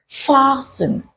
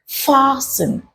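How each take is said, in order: First: The T sound is left silent. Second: The T sound is left silent.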